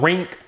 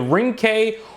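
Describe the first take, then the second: First: The name is said as one single syllable. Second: The name is said as two separate syllables.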